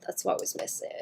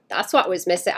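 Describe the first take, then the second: First: Soft breathy whisper. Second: Said in the usual way. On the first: Shown as a demonstration. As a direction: whisper it to yourself. Whispered then repeated aloud.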